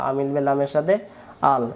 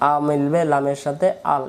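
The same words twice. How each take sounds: The two takes are said the same way.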